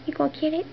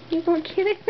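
No difference in how they are said.

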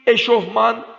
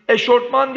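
First: Said in the usual way. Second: "Eşortman" with rt in place of f; wrong pronunciation. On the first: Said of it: "doğru". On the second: Shown as a demonstration. Teacher voices the everyday error "Eşortman". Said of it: "Eşortman değil".

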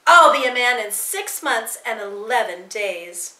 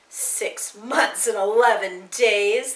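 First: Louder, earnest boast; defiant insistence. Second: Slow, drawn-out taunt; mocking echo. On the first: Boy standing up to laughing Nazis, defiant insistence. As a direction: insist on it to the mockers. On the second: Brown shirt echoing the boy's boast, slow mockery. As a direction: repeat it slowly to ridicule him. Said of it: "The Nazis laughed again". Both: A narrator's reading.

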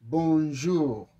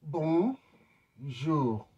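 First: Bonjour called out louder for repeating; louder model word. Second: Bonjour said clearly and carefully, French bon-jour; model word. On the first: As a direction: prompt the class with a loud Bonjour. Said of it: "I want you to repeat this word". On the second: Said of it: "The first word is bonjour". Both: Shown as a demonstration.

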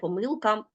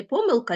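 First: Помилка said as po-MYL-ka; помилка with the middle syllable strong; stress on second syllable. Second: Помилка said as PO-myl-ka; помилка with the opening syllable strong; stress on first syllable. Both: Shown as a demonstration. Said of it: "а можна сказати".

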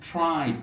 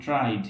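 First: "tried" with a puff after the t; breathy t burst opening "tried"; aspirated t. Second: "tried" with no puff after the t; hard unaspirated t opening "tried". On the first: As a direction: say "tried" as "thried" with a tongue-stop t. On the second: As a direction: say "tried" with a dry t, close to d. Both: Shown as a demonstration. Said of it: "not tried".

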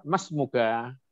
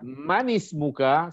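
First: "mas muka" said as the correct Arabic, rising at the end; teacher models the right "mas muka" with a rising question tune; correct phrasing. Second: "Manis muka" said slowly as the wrong version; teacher slowly models "Manis muka" as the mistake to avoid; wrong phrasing. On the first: Teacher gives students the correct form, with a rising question tune. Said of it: "Yang benar". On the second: Teacher shows students the wrong phrase, slow and deliberate. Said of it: "salah kalimatnya". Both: Shown as a demonstration.

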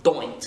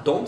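First: Scottish DOINT, with an oi glide; Scottish vowel in doint; Scottish accent. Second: Said in the usual way. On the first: Shown as a demonstration. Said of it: "c'est pas don't, c'est doint". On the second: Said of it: "c'est pas don't".

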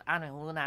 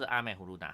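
First: 阿美呼噜娜 with the final 娜 pitched higher and stretched long; long raised ending. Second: Said in the usual way. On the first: Shown as a demonstration. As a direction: lift 阿美呼噜娜 at the end and hold the last syllable out like a shout. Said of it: "然后把它拉长嘛". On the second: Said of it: "他不是阿美呼噜娜".

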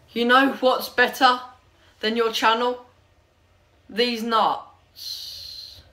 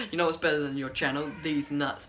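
First: Comment read-out. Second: Said in the usual way. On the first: Acted. Vlogger reads a mean comment to viewers, declaiming it. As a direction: announce it in chunks, building to the punchline.

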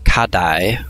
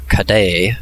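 First: "Kadai" with the last syllable rhyming with "eye"; Kadai ending in "dye". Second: "Kadai" with the last syllable rhyming with "say"; Kadai ending in "day". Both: Shown as a demonstration. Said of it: "however you pronounce this one".

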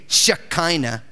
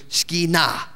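First: "Shekinah" as she-KY-nah, stress on the middle syllable; English pronunciation. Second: "Shekinah" as sheh-khee-NAH, stress on the last syllable; Hebrew pronunciation. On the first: Pastor shows the congregation the usual English way: "Shekinah" with middle stress. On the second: Pastor teaches the congregation the Hebrew form: "Shekinah" stressed on the final syllable. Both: Shown as a demonstration. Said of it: "the accent's always on the last syllable".

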